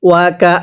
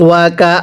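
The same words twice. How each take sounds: Both takes have the same delivery.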